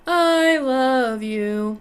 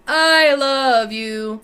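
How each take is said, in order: First: The voice is sweet, smooth and pretty. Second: The voice is harsh, brash and nasty. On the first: The speaker calls it wrong. "What we don't want to hear is I love you. Too pretty" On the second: The speaker calls it right. "Let it be nasty"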